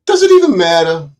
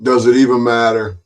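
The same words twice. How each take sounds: First: Higher and louder, pressing the question; louder, higher second asking; louder repeat. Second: Said in the usual way. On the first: Real, not acted. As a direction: repeat it with more force and a raised pitch.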